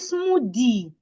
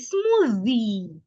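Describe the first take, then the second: First: The middle consonant is a d sound. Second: The middle consonant is a voiced th. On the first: The speaker calls it wrong. "Instead of saying smoothie" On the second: The speaker calls it right. "say smoothie"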